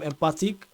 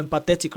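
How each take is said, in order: First: Empathic said first as a slip, then corrected; a quick wrong word, empathic; misspoken empathic. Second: Empathetic said as the fix for empathic; a plain self-correction to empathetic; corrected empathetic. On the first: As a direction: let empathic slip out before the fix. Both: Real, not acted. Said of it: "or empathetic rather".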